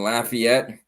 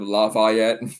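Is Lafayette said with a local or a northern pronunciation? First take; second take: local; northern. First: It is said with the local pronunciation. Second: It is said with a northern pronunciation. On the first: The speaker calls it right. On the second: The speaker calls it wrong.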